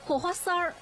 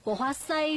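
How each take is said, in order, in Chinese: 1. 最后一个音节以儿化音结尾。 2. 最后一个音节平着结尾，没有儿化。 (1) "我这加儿化音" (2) "就把儿化音去掉就行了"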